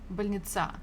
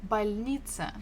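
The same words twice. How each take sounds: First: The stress is on the last syllable. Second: The stress is on the middle syllable. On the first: The speaker calls it wrong. "If you stress the last one" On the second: The speaker calls it right. "The stress falls on E"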